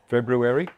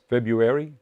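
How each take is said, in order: First: The first R sound is clearly pronounced. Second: The first R sound is left out. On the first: "not February" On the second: "I often pronounce it February"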